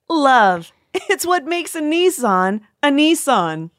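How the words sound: The line is said with much laughter. The speaker calls it right.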